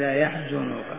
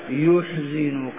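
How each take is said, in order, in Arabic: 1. المقطع الأول ليس فيه حركة ضمة. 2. المقطع الأول فيه حركة ضمة. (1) "كقراءة الجمهور يحزنك" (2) "قرأ ورش عن نافع: يحزنك بضم الياء"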